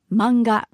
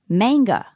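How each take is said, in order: First: It is said with a Japanese pronunciation. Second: It is said with an English pronunciation. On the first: "in Japanese, we don't have that strong a sound. So it's simply manga" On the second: "In English, it might be pronounced manga"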